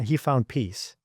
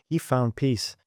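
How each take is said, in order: First: He found peace drawn out slowly, each word weighted; slow emphatic. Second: Said in the usual way. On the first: Real, not acted.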